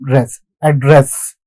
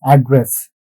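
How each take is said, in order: First: "address" stressed on "dress", slowly; slow demonstration of "address" with the weight on "dress"; second-syllable stress. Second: "address" stressed on "ad"; "address" as the noun, AD-dress; first-syllable stress. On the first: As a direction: isolate "Dress", then say "address" as ad-DRESS. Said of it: "stress would be in the second syllable". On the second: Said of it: "stress is on the first syllable". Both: Shown as a demonstration.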